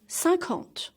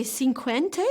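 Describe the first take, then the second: First: "cinquante" as san-KANT, no w; correct French pronunciation. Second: "cinquante" wrongly said sin-kwen-tay; wrong pronunciation. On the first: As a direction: say "cinquante" in two nasal syllables, silent e. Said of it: "we say cinquante". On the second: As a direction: show the mistake in "cinquante" with kw and a sounded final e. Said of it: "We don't say cinquante". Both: Shown as a demonstration.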